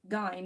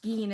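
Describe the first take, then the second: First: The vowel sounds like the i in fine. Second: The vowel sounds like the ee in fiend. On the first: The speaker calls it wrong. "not Gein as in fine" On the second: The speaker calls it right. "Gein as in fiend"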